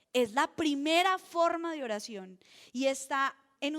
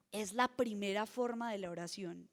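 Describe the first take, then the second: First: Louder restatement. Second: Said in the usual way. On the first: Real, not acted.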